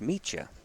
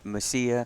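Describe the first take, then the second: First: The name is said like 'Micha'. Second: The name is said like 'Messiah'. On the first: The speaker calls it right. "but it's Micha" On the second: The speaker calls it wrong. "he's probably been called his last name every, Messiah"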